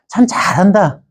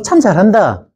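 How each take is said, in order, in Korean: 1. 비꼬고 놀리는 어조로 말한다. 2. 따뜻하고 진심 어린 감탄을 담아 말한다. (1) "이 발음만 좀 다르게 하면, 참 잘한다. 이러면 완전히 반대의 말이 돼버리죠" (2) "이거는 진짜 잘하는 거예요"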